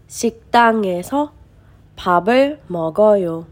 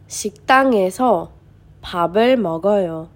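The two takes are said the same way.

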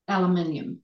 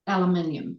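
First: It is said with a New Zealand pronunciation. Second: The same.

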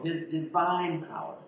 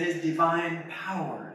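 First: The word 'divine' is stressed. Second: The word 'power' is stressed. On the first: "you put an emphasis on each word" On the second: "you put an emphasis on each word"

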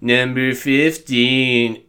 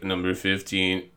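First: It is said in an exaggerated, ridiculous spooky voice. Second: It is said in a fairly plain, normal voice. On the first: This is how he sounds now, after being mocked. "So now he's like" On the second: This is how he sounded in his early videos. "he didn't sound that ridiculous, you know? In his earlier videos, he was more like"

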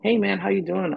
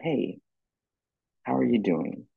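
First: It sounds casual and offhand. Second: It sounds sincere and caring.

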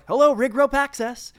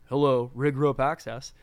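First: The greeting sounds cheerful and friendly. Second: The greeting sounds dull and unfriendly.

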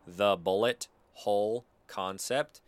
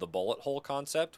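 First: The name is said slowly and deliberately. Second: The name is said at a normal, quick pace.

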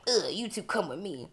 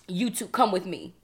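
First: It sounds mean and annoyed. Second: It sounds stern and authoritative.

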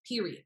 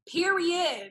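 First: It sounds final, like ending the conversation. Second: It sounds enthusiastic, like excited agreement.

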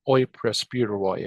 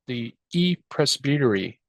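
First: It uses the Erasmian pronunciation. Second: It uses the modern Greek pronunciation.

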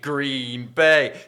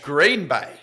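First: The stress falls on the word Bay. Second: The stress falls on the word Green. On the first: "you guys love to emphasize that last bit" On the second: "We would say Green Bay"

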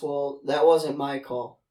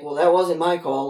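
First: It is said in a plain, neutral tone. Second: It is said in a pointed, displeased tone. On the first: It is a simple statement of fact. "his simple response" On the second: The speaker would have chosen differently. "his tone was more like"

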